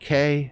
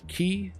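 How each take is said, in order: First: The word sounds like the letter K. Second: The word rhymes with 'see', like key. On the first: "all acceptable pronunciations" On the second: "all acceptable pronunciations"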